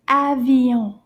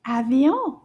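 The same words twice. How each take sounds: First: "Avion" drawn out and loud for repeating; teacher's careful, stretched "Avion"; slow model. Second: "Avion" run together more quickly; slightly sped-up "Avion"; a bit faster. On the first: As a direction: say "Avion" slowly and firmly. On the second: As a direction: say "Avion" a little quicker, as one word. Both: Shown as a demonstration. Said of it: "A little bit faster".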